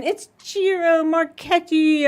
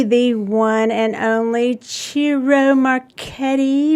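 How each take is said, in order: First: "Ciro Marchetti" spoken slowly and carefully, every syllable clear; slow, precise correction of "Ciro Marchetti"; correcting fans. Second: "Ciro Marchetti" drawn out slowly with a rising finish; "the one and only Ciro Marchetti" stretched like a showman's introduction; host's first take. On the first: Retold or imitated. Fans correcting the host's pronunciation of "Ciro Marchetti". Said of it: "they're all going". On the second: Shown as a demonstration. Host introducing "Ciro Marchetti" in a slow, showy build-up. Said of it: "I didn't say that as fancy as I want".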